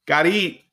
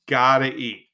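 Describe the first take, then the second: First: Said in the usual way. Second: Gotta eat in a mock tough-guy voice; gruff put-on voice. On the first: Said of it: "repeated in a put-on voice". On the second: Shown as a demonstration. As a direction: growl it like a hungry mobster type. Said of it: "second take, timbre changes".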